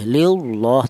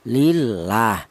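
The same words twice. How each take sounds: First: The l of Allah is heavy and thick. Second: The l of Allah is light and thin. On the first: The speaker calls it wrong. "Tidak boleh lillah" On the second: The speaker calls it right. "Ini dibaca tarkik ya"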